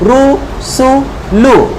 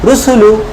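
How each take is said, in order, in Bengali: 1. প্রতিটি শব্দাংশ আলাদা করে, থেমে থেমে বলা হয়। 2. শব্দাংশগুলো দ্রুত একসাথে মিলিয়ে বলা হয়।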